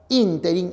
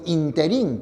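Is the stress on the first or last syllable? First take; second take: first; last. First: The stress is on the first syllable. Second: The stress is on the last syllable. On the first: The speaker calls it right. "la palabra ínterin es esdrújula" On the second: The speaker calls it wrong. "la expresión interín que algunos emplean es impropia"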